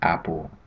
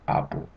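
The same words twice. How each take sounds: First: The first vowel sounds like English a. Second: The first vowel sounds like ah. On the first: "instead of" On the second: "it's an ah sound"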